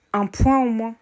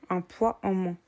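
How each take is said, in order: First: "un point en moins" with "poids" slipping out as "point", a nasal "oin" at the end; "point" said for "poids", a slip of the accent. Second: Said in the usual way. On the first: Real, not acted. Vlogger to her viewers, slipping on "poids" and saying "point". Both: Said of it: "Désolée, mon accent".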